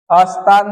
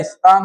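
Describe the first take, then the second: First: स्थान with an a- in front, "asthaan"; wrong form. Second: स्थान said "isthaan", i-glide first; correct form. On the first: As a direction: say अस्थान starting on "as". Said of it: "अस्थान नहीं होता". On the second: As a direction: start स्थान on a light "is". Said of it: "स्थान होता है". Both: Shown as a demonstration.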